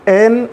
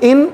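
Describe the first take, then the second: First: The vowel sounds like a mid 'e'. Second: The vowel sounds like a short 'i'. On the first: The speaker calls it wrong. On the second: The speaker calls it right.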